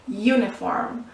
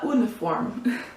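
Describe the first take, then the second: First: The word begins with a 'you' sound. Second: The word begins with a plain vowel sound. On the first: The speaker calls it right. "It sounds like you, like Y O U, you" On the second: The speaker calls it wrong. "Otherwise, it would be a uniform. And then you put an uniform"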